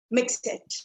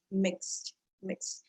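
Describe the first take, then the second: First: Mixed broken into two syllables, mix it; extra vowel before the T, mix it; common mispronunciation. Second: Mixed as one syllable, mikst; low, soft mixed with X running into T; correct pronunciation. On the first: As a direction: say mixed as 'mix-it'. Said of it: "It's not mix it". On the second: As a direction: say mixed slowly, no vowel before the T. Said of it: "What's the correct pronunciation". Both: Shown as a demonstration.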